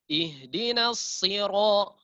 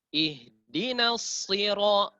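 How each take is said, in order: Both takes have the same delivery.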